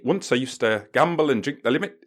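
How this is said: It is read in an attempted Canadian accent.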